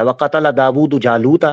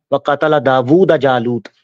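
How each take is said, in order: First: دَاوُودُ ending in a short "u"; correct case ending. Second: دَاوُودَ ending in a short "a"; misread case ending. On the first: Shown as a demonstration. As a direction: recite دَاوُودُ with final damma, "Dawudu". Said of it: "یہ سب سے نیچے جو آیا تھا". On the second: Retold or imitated. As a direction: recite دَاوُودَ with final fatha, "Dawuda". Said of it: "یہ پڑھا ہے".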